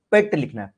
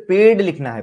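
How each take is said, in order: First: पेट with a light, voiceless ट at the end; short पेट closed by a light ट; light final T. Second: पेड with a voiced, dark ड at the end; पेड closed by a heavier voiced ड; dark final D. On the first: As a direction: end पेट on a crisp T sound, not D. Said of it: "light sound है". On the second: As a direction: end पेड on a D sound, not T. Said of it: "डी मतलब dark sound". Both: Shown as a demonstration.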